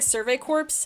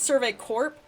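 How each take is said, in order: First: The last word ends with an s sound. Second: The last word ends without an s sound. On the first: The speaker calls it wrong. "I've been saying that wrong the entire time" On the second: The speaker calls it right. "I'm pretty sure it's just Survey Corp"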